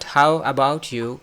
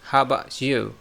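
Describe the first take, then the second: First: The T in about is clearly pronounced. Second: The T in about is skipped. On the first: The speaker calls it wrong. "Not how about you" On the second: The speaker calls it right. "we can skip the T sound"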